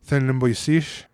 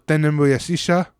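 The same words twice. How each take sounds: First: "sish" slow with a rising question end; "Then nimbo sish" slowly, rising on "sish"; slow contracted demo. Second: "sisha" said in full, rising, a touch higher; full form demo. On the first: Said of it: "sisha becomes sish". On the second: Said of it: "they don't contract that". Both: Shown as a demonstration.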